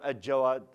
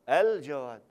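First: The L is merged into a doubled J sound. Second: The L sound is clearly pronounced before the J. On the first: The speaker calls it wrong. "ليش الإمام الجواد؟" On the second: The speaker calls it right. "الإفلام هنا حرف قمري"

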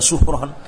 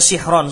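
First: The first vowel is u. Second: The first vowel is i. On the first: The speaker calls it wrong. "enggak ada suhron" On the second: The speaker calls it right. "sihron kasroh"

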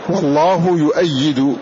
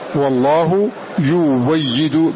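First: The verb has a glottal stop after 'yu'. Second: The verb has a w sound after 'yu'. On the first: "فهذه الهمزة هنا مفتوحة" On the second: "بالواو"

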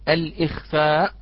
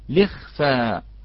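First: The word starts with 'al' and keeps the hamza. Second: The word starts with 'li' and drops the hamza. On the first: The speaker calls it wrong. "لا نقول الإخفاء" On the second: The speaker calls it right. "نقول لخفى"

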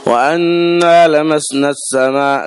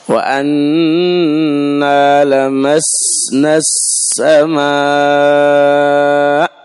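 First: The s sound is weak with little whistle. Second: The s sound has a clear, sharp whistle. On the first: The speaker calls it wrong. "لمسنا السماء ما اتضح" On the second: The speaker calls it right. "شوف هذا هو صفيره"

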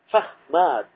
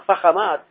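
First: The middle consonant stays silent. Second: The middle consonant carries a vowel. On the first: The speaker calls it right. "لتبقي السكون فيه" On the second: The speaker calls it wrong. "لا فخمات"

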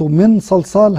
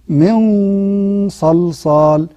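First: The n is pronounced fully and clearly. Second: The n is nasalized, between clear and merged. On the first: The speaker calls it wrong. "هذا إظهار" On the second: The speaker calls it right. "بين الإظهار وبين الإدغام"

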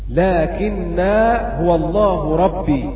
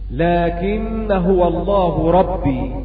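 First: A long 'a' is kept after 'lakinna' in connection. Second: The long 'a' is dropped, running straight into 'huwa'. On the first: This is the reading of one reciter. "بإثبات الألف وصلا ووقفا" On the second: This is the reading of the other reciters. "قرأوا بحذف الألف وصلا"

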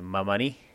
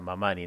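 First: The stress is on the last syllable. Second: The stress is on the middle syllable. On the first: This is how it is usually said locally. The speaker calls it wrong. "estamos acostumbrados a pronunciar el apellido Mamani" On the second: This follows the original Quechua word. The speaker calls it right. "se pronuncia con el acento en la penúltima sílaba, entonces justamente sería Mamani"

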